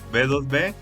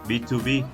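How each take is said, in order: First: The middle number is said in Spanish. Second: The middle number is said in English. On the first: "lo vas a encontrar como B dos B" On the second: "normalmente se pronuncia en inglés"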